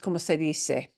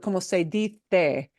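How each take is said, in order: First: The c in dice sounds like s. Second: The c in dice sounds like th. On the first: "that S sound that we're accustomed to" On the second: "they do not do the como se dice"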